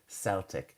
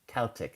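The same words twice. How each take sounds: First: The word begins with a soft S sound. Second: The word begins with a hard K sound. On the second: "I would go with the K"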